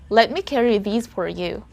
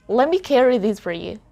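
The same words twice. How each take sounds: First: Every sound, including the T, is clearly pronounced. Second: The T in 'let me' is dropped. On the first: This is how a non-native speaker might say it. "That's very clear. We heard each word, each syllable" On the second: This is how a native speaker might say it. "There's no T"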